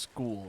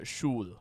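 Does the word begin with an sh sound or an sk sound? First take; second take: sk sound; sh sound. First: The word begins with an s-k sound. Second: The word begins with an sh sound. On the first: "school would not be pronounced school" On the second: "it would be pronounced uh, Schul if it were you know in German"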